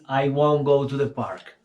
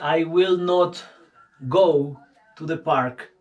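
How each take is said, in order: First: The negative is contracted into one syllable. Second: The negative is said in full as two words. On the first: It sounds informal and conversational. "para lo informal o hablarlo, always is" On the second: It sounds formal. "cuando es algo muy formal"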